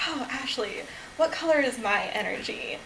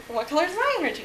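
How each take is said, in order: First: Softly quoting herself; retold own question. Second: Higher, lightly voiced friend; imitating friend's question. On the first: Speaker asking Ashley her energy color, lightly retold. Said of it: "And I was like". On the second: Friend asking the speaker her energy color, lightly imitated. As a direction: quote a friend asking back, pitched up. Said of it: "She's like".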